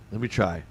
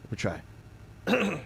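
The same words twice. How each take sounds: First: Said in the usual way. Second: Slow, soft rasp of Marge Simpson; a hint of a cartoon mom's rasp; attempting Marge. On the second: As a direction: try out a raspy cartoon mom. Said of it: "I used to be able to do ... a kinda good Marge".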